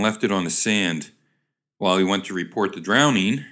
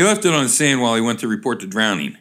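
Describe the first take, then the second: First: "left it on the sand", full stop, then "While" starts afresh; misread pause. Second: "sand while" run straight together, quickly; fast unbroken phrase from "left" to "drowning"; no comma. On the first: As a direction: break after "sand" and leave "drowning" hanging up. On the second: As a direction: read through "sand" into "while" without a pause, falling on "drowning". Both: Real, not acted. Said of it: "there wasn't a comma there".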